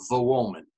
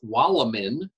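First: It begins with a V sound and has a W. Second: It begins with a W sound and has an L. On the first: The speaker calls it right. "is pronounced in Polish as" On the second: The speaker calls it wrong. "what looks to the American reader as"

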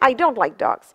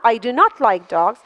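First: Contracted to one word, 'don't'. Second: Full 'do not' with the stress on 'not'.

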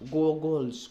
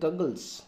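First: The first vowel is a rounded 'oh'. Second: The first vowel is a short open 'ah'. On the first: The speaker calls it wrong. "कहउनांती गोगल्स" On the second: The speaker calls it right. "अ सुबुची"

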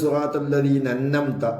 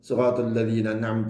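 First: The second n is doubled and held. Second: The long vowel after the n is dropped. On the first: "2-മത്തെ നൂനിന് ശ്രദ്ധ ചെയ്തുകൊണ്ട്" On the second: "നൂനിൻ്റെ ശേഷം അലിഫിനെ ഒഴിവാക്കിക്കൊണ്ട്"

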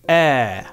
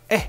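First: The vowel sound is held long. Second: The vowel sound is cut short. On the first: "Nehmen wir wieder einen langen Laut" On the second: "Und kurz haben wir Ä"

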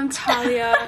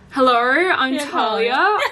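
First: It is said in a neutral accent. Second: It is said in an Australian accent.

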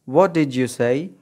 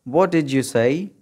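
The two takes are said the same way.

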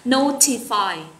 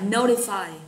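First: It is said with a British accent. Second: It is said with an American accent. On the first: "Nếu như đọc âm Anh thì chúng ta sẽ đọc là notify" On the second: "Còn đọc âm Anh Mỹ thì mình sẽ đọc là notify"

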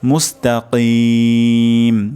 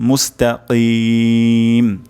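The two takes are said the same way.

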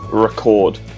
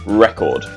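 First: The stress is on the second syllable. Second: The stress is on the first syllable. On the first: It means to save a show to watch later. "record on TV, record, the stress, chord" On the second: It means a best-ever achievement. "the stress is the first syllable"

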